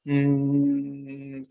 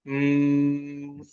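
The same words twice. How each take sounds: First: A heavy hum made from the throat. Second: A thin hum made from the mouth. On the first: The speaker calls it right. "आप कंठ से करो तो भारी आवाज हो जाएगी" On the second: The speaker calls it wrong. "माँ की आवाज निकालो मुंह से"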